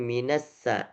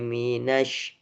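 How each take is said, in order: First: The word ends in a plain 's' sound. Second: The word ends in a spread 'sh' sound. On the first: The speaker calls it wrong. "bukan minassa" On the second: The speaker calls it right. "nash harus tersebar"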